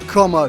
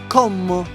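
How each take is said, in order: First: It is said with a plain English accent. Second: It is said with a stronger Italian accent. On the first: The speaker calls it wrong. "That didn't sound Italian enough" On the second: The speaker calls it right. "that's better"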